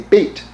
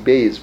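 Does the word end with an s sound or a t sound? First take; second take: t sound; s sound. First: The word ends with a t sound. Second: The word ends with an s sound. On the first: This is the more authoritative pronunciation. "Beit is how you would pronounce it, you know, maybe more authoritatively"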